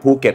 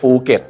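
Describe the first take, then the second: First: The word begins with an aspirated p sound. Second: The word begins with an f sound. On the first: The speaker calls it right. "จังหวัดภูเก็ต" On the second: The speaker calls it wrong. "ฝรั่งบางคนก็เลยออกเสียงนะฮะ"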